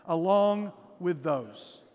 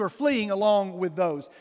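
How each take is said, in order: First: "along with those" drawn out slowly, each word weighted; slow emphatic phrase. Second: "are fleeing along with those" slowed, stress on "fleeing"; slow down and press on "fleeing"; stressed phrase. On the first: Pastor leads church in key phrase, slow and emphatic. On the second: Pastor drives home the verse's phrase, slow with stress. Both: Shown as a demonstration. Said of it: "let's just say these three words together".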